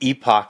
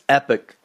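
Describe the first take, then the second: First: The second syllable sounds like 'ock'. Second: The second syllable sounds like 'ick'. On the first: This is how people from one region say it. "If you're from Philadelphia, I think Epoch is the way" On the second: This is how people from another region say it. "If you're from Texas, it's Epic"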